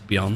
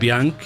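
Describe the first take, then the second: First: The name is said as Beyond. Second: The name is said as Bianc. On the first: The speaker calls it right. "it's Beyond" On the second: The speaker calls it wrong. "So it's not even Bianc"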